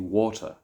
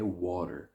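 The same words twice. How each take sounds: First: Said with a hard, crisp t sound. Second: The t sounds almost like a d. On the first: "the or sound in the United Kingdom to be water" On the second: "In America, it could be water. Like it's almost like a D sound"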